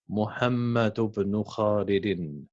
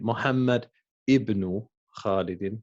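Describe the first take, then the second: First: The opening vowel of ibn is dropped and linked. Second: The opening vowel of ibn is clearly pronounced. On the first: The speaker calls it right. "We say" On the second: The speaker calls it wrong. "we wouldn't say"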